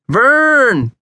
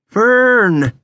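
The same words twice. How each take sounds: First: The name is hollered loudly. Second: The name is hissed a little louder.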